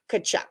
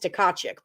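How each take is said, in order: First: The name starts directly with a K sound. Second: The name starts with a T and extra vowel. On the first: The speaker calls it right. "Yes, the T's are silent" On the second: The speaker calls it wrong. "I know that's not how you say his name"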